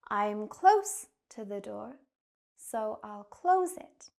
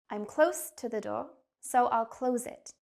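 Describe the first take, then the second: First: The sentence is spoken at a slow pace. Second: The sentence is spoken at a fast pace. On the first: "Now again, but slower" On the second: "I'll say the sentence quickly"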